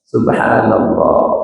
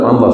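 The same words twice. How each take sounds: First: It is said slowly and thoughtfully. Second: It is said quickly and mechanically.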